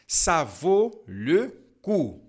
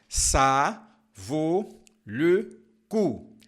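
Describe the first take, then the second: First: The phrase is spoken at a normal pace. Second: The phrase is spoken more slowly.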